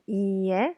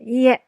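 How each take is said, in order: First: The word is said softly and relaxed. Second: The word is said strongly and harshly. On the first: The speaker calls it right. "you say it very relaxed" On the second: The speaker calls it wrong. "it sounds really harsh and we don't really say いいえ so strong"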